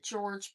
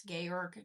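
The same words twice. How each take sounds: First: George said the English way, like the common first name; English pronunciation of George. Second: Georg with hard g sounds, in two syllables, GAY-org; European pronunciation of Georg. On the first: Telling viewers how some people say the name, George the English way. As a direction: say George with soft j sounds at both ends. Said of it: "Some people pronounce it George". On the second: Showing viewers how the designer's name is said, Georg as GAY-org. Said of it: "but pronounce Georg". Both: Shown as a demonstration.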